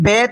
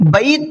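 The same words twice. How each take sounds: First: The vowel is a plain long e sound. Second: The vowel glides from a to i. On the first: The speaker calls it wrong. "बैत पढ़ोगे तो मजहूल हो जाएगा" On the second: The speaker calls it right. "बैत पढ़ना है"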